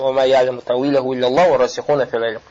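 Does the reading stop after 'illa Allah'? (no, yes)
no. The reading runs on and stops after 'fil ilm'. God and the firmly grounded in knowledge know its meaning. "Если имеем в виду смысл тафсир, тогда останавливаемся"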